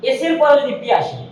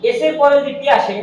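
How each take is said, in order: Both takes have the same delivery.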